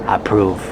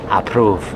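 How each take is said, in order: No difference in how they are said.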